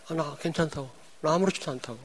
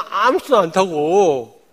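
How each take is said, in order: First: Softly brushing it off, a light retelling; quiet retold reply. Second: Slow, 아무렇지도 drawn out and pressed, falling at the end; firm insistence. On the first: Pastor retelling to the congregation his quiet reassurance to friends, softly. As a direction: murmur that you're fine, half to yourself. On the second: Retold or imitated. Pastor insisting to the congregation that he is fine, with 아무렇지도 slowed and stressed. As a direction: lean hard on 아무렇지도 and let the line fall. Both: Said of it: "내가 그랬어요".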